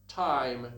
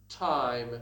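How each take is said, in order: The two takes are said the same way.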